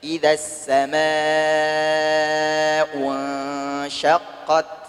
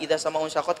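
First: Vowels are lengthened and consonants are clearly doubled. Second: Vowels are short and consonants are not doubled. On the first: The speaker calls it right. "benar-benar tajwidnya diperhatikan" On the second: The speaker calls it wrong. "kita baca seenak udel"

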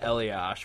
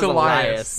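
First: The name ends with an 'sh' sound. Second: The name ends with an 's' sound. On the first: The speaker calls it wrong. "I pronounced it Eliash when I saw it" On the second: The speaker calls it right. "But then it's Elias"

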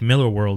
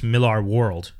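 First: The name is said like the beer brand. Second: The name is said unlike the beer brand. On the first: This is the familiar, easier pronunciation. "Miller World is so much easier on the tongue" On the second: This is the pronunciation the owner uses. "I'm told his name is Millar and it's Millar World"

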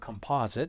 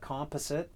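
First: It is said in an American way. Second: It is said in a non-American way.

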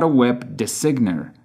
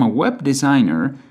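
First: The g in designer is pronounced. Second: The g in designer is silent. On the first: The speaker calls it wrong. "not a web designer" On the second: The speaker calls it right. "G is not pronounced at all"

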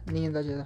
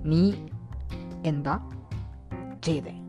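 First: It is said at a fast pace. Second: It is said at a slow pace.

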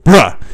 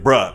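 First: It is said very loud and distorted. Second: It is said at a normal volume.

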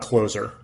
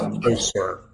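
First: The middle consonant is a buzzing z sound. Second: The middle consonant is a hissing s sound. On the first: It means someone who closes a deal. The speaker calls it wrong. "not Closer. Not like you're the closer" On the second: It means more near. The speaker calls it right. "I always think of it as Closer"

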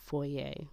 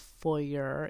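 First: It is said with a French pronunciation. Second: It is said with an English pronunciation. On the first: The speaker calls it right. "it's a French word. And it's foyer" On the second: The speaker calls it wrong. "It's not a foyer"

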